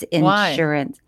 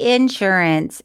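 First: It is said with a standard pronunciation. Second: It is said with a Southern pronunciation. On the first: The speaker calls it right. "It's insurance" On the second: The speaker calls it wrong. "I used to say insurance... it's very Southern"

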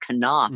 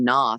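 First: The initial K is sounded. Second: The initial K is silent. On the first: The speaker calls it right. "and it's Knopf, apparently, which is way worse pronunciation" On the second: The speaker calls it wrong. "I was mispronouncing her name. I was saying Knopf"

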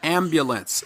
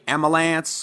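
First: The middle b sound is pronounced. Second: The middle b sound is dropped. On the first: The speaker calls it right. "but the word is ambulance" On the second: The speaker calls it wrong. "Many of us say amalance"

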